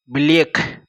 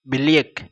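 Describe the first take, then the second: No difference in how they are said.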